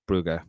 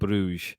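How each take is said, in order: First: The name is said in the Flemish way. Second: The name is said in the English way. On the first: The speaker calls it wrong. "trying to say Brugge because you know that's Flemish" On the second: The speaker calls it right. "I should have just gone with the pronunciation of Club Bruges"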